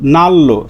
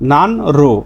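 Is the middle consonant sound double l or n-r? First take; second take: double l; n-r. First: The middle is said as a double l. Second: The middle is said as an n then r. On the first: The speaker calls it right. "সঠিক উচ্চারণ হচ্ছে নাল্লো" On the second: The speaker calls it wrong. "স্বাভাবিকভাবে এর উচ্চারণ হয় কি নান রো"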